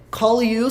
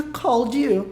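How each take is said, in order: First: "call you" with no D between the words; "call you", L gliding into Y; present form. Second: "called you" with D linked into "you"; one-syllable "called" joined to "you"; past form. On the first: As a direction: link "call" straight into "you". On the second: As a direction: say "called you" as "call-dyou". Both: Shown as a demonstration. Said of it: "só fica called you".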